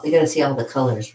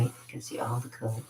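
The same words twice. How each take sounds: First: Said in the usual way. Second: Soft repeat under the breath; quiet echo. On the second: Shown as a demonstration. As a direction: say it again, much softer.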